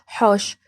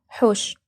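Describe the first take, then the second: First: The vowel in the word is open. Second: The vowel in the word is closed. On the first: This is how people in Iraq say it. "احنا نقولوا حوش هكذا، يعني الكلمة مفتوحة" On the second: This is how the other dialect says it. "انتم ما تقولوا حوش"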